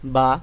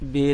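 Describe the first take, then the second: First: The letter name ends in an 'a' vowel. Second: The letter name ends in an 'e' vowel. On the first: It is the Arabic name of the letter. The speaker calls it right. "উচ্চারণগুলি হবে আলিফ, ... বা" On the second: It is the Urdu name of the letter. The speaker calls it wrong. "এটি পুরোপুরি ভুল, এটি উর্দু বর্ণ"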